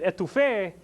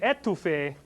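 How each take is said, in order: First: The stress is on the last syllable. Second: The stress is on the first syllable. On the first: It means smothering food with a sauce. "If you put the emphasis on the end of it" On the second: It means smothering a person. "If you put the emphasis on the first e"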